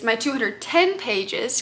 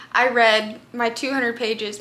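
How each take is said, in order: First: "ten" stressed, slow with a rise; correcting to "ten" with emphasis. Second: Said in the usual way. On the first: Shown as a demonstration.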